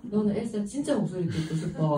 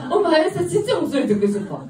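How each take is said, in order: First: Said in the usual way. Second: Put-on high, loud, eager child's voice; imitated small girl piping up loudly; little daughter. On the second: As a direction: play a seven-year-old begging mum. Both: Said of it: "그래서 우리 딸한테".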